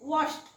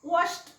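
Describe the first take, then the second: First: The ending is a sound between d and t. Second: The same.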